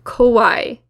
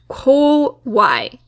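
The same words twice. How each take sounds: First: The first vowel is reduced and unclear. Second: The first vowel is a clear, full o. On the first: The speaker calls it wrong. "turn all of the vowels into a similar sound" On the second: The speaker calls it right. "it really is an O sound"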